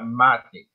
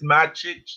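First: The name ends with a 'k' sound. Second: The name ends with a 'ch' sound. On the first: The speaker calls it wrong. "not Matic" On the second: The speaker calls it right. "Pablo said it's Magic"

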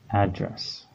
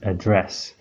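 First: The stress is on the first syllable. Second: The stress is on the second syllable. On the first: It is a noun: where someone lives. "we know that the word is a noun. So your mailing address, an address is a thing" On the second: It is a verb: to speak to a group. "this word is a verb, so the correct pronunciation is address"

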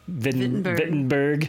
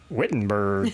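First: The name is said with German pronunciation. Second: The name is said with Southern English pronunciation. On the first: "as he was pronouncing it, Wittenberg, the German pronunciation" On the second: "not the Southern English Wittenberg"

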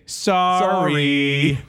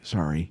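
First: It is said in a mocking, taunting way. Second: It is said in a sincere, apologetic way. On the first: The speaker does not mean the apology at all. "It's a taunting game" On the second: The speaker genuinely apologizes. "You don't say sorry"

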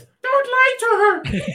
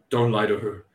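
First: It is said in an altered character voice. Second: It is said in a plain, ordinary voice. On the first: "Or maybe in his real voice" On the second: "And Snake Eyes is just like"

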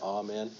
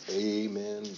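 First: The first vowel sounds like 'ah'. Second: The first vowel sounds like 'ay'. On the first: This is how choirs are taught to sing it. "drop that A" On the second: This suits a spiritual or gospel style. "some kind of spiritual, gospel-y style"

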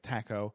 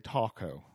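First: Taco is pronounced the usual British English way. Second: Taco is pronounced the American way, English accent. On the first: This is how the word would normally be said. "which is how you would say it" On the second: This is how the father says it. "he say Taco"

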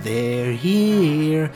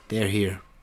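First: It is delivered in a dramatic, memorable way. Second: It is delivered plainly, like an ordinary line.

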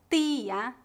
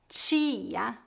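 First: It is said with a Recife accent. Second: It is said with a general Brazilian accent.

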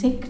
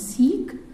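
First: The word has a short vowel, like 'sick'. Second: The word has a long vowel, like 'seek'. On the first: The speaker calls it right. "it is Sikh ... You could say S-I-C-K-H" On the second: The speaker calls it wrong. "not Sikh"

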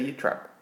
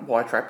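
First: The first syllable sounds like 'yeh'. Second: The first syllable sounds like 'why'. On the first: The speaker calls it right. "You'd say Ye Trap" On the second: The speaker calls it wrong. "Not Why Trap"

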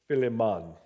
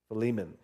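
First: The name is said in a Jamaican accent. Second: The name is said in the speaker's plain accent.

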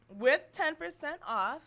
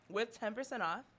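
First: The phrase is yelled loudly. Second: The phrase is said more quietly. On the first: "Do you have to yell every single one?" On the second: "I said a little bit quieter"

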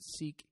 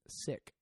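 First: It has a long vowel, like the word seek. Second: It has a short vowel, like the word sick. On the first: This version avoids sounding like being ill. "they pronounce it Sikh here because they don't want to sound like they're saying, I am sick" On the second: This is how the community itself says it. "people of the Sikh religion and culture pronounce it Sikh"

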